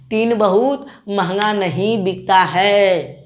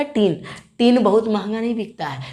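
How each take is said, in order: First: Slow, each word of tin बहुत महंगा नहीं बिकता है spaced out; slow, deliberate. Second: Said in the usual way. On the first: Shown as a demonstration. Teacher repeating the mnemonic slowly for students, deliberate. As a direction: drill it slowly so it sticks.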